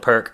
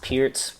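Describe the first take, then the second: First: The word ends with a k sound. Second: The word ends with an s sound. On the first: "A lot of people call it the perk" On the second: "pronounced Pearce"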